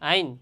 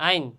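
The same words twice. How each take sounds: Both takes have the same delivery.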